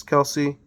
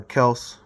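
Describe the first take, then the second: First: Kelce said as KEL-see with two syllables; Kelce pronounced two syllables. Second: Kels said as one clipped syllable, no final vowel; Kels pronounced one syllable. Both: Shown as a demonstration. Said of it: "however you say it".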